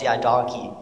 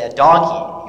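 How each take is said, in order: First: Said in the usual way. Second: "A donkey?" as a puzzled question, rising at the end. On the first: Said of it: "He goes". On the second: Acted. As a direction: query "donkey" back, lifting the end. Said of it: "And I say".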